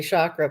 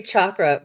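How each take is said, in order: First: "chakra" said as SHAH-kruh; soft SH sound. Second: "chakra" said as CHAH-kruh; hard CH sound. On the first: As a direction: begin "chakra" with sh as in champagne. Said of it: "if I get lazy and say". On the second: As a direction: begin "chakra" with ch as in Charlie. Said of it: "I will try and say chakra". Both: Shown as a demonstration.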